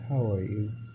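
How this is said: It is said in a sad tone. The speaker feels sad. "or just sad"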